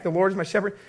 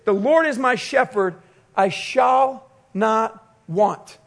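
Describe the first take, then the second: First: Said in the usual way. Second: "The Lord is my shepherd, I shall not want" raised and slowed, with a pause before "I shall not want"; slow, reverent reading of the psalm; solemn scripture reading. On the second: Shown as a demonstration. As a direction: lift the verse up and let it land slowly. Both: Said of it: "The very first verse of this psalm is this".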